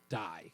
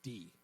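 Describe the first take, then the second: First: The vowel is a long 'eye' sound. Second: The vowel is a short 'ih' sound. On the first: The speaker calls it wrong. "it's not a long I ... It's not die" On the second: The speaker calls it right. "It's D"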